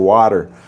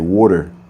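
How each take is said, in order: First: It is said in a Texas accent. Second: It is said in a New Jersey accent. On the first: "you might go to Texas, they might say" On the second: "like New Jersey, they might say"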